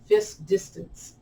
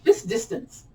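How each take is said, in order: First: "Fist distance" said slowly and carefully; careful enunciation. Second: "Fist distance" pitched way up high; high-voiced second go at "Fist distance"; tongue-twister retry. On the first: Teacher retrying a tongue-twisting phrase for the class, carefully enunciated. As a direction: work through the tricky consonants in "Fist distance". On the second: Teacher retrying a hard-to-say phrase, in a high voice. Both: Shown as a demonstration. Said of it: "That is so hard to say".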